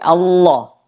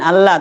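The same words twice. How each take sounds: First: The L sounds heavy and thick. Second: The L sounds light and thin. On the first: The speaker calls it right. "tapi Allah; Allah mesti dibaca tebal" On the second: The speaker calls it wrong. "Bukan Allah"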